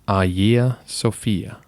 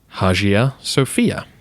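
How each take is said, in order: First: Modern Greek, starting with a soft G sound. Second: Anglicized, starting with a hard H sound. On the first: The speaker calls it right. "In modern Greek, the pronunciation should be" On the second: The speaker calls it wrong. "in English, the name looks like it should be said"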